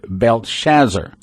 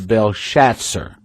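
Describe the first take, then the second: First: The name is pronounced as its English spelling suggests. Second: The name is pronounced the original-language way. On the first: "if you you pronounce it the way it's spelled" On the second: "the way you would pronounce it in the original tongue"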